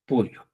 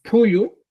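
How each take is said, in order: First: Puyo in Chanca Quechua, with a simple p; pronunciación chanca. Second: Puyu in Collao Quechua, with a marked puff on the p; pronunciación collao. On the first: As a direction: say puyo with a plain, unforced p. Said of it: "y en el chanca dices". (puyo a la manera chanca, con p simple) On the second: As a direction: say puyu the Collao way, strong initial p. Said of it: "Collao, por ejemplo, dices". (puyu a la manera collao, con p marcada) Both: Shown as a demonstration.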